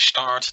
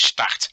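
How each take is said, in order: First: The word is said with an English pronunciation. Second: The word is said with a Dutch pronunciation. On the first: "The English pronunciation is start" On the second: "the Dutch pronunciation is start"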